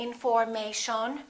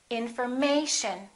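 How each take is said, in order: First: The stress is not on the third syllable. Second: The stress is on the third syllable. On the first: The speaker calls it wrong. "We don't say information" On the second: The speaker calls it right. "the most uh, stressed syllable right here, the A"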